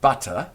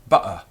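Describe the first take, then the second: First: The middle consonant is a clear t sound. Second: The middle consonant is a glottal stop. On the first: The speaker sounds upper middle class. "instead of saying butter, which is decidedly uh, upper middle class nowadays" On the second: The speaker sounds like a Londoner. "what you would hear in London is butter"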